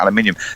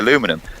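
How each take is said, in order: First: It is said with British pronunciation. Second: It is said with American pronunciation. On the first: "changed it to aluminium" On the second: "as they say"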